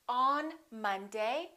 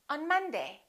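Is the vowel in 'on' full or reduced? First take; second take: full; reduced. First: The vowel in on is full. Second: The vowel in on is reduced to uh. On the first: The speaker calls it wrong. "We don't say" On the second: The speaker calls it right. "we say"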